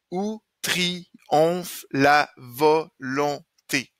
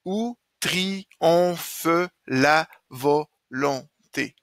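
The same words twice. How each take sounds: First: Slow beats, "triomphe" as tri-omph, final e silent; counted as seven syllables. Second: Slow beats, "triomphe" as tri-om-phe, final e sounded; counted as eight syllables. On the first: Teacher counting seven syllables, saying "triomphe" as tri-omph. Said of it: "Là, j'ai sept". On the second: Teacher making it eight syllables, saying "triomphe" as tri-om-phe. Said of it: "je peux le dire différemment pour en avoir huit". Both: Shown as a demonstration.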